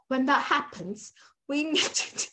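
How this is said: It is spoken in an attempted British accent. "That was my British accent"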